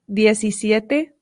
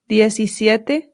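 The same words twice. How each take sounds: No difference in how they are said.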